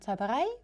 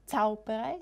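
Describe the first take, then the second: First: The stress is on the last syllable. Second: The stress is on the first syllable. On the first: The speaker calls it right. "sondern Zauberei" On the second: The speaker calls it wrong. "nicht Zauberei"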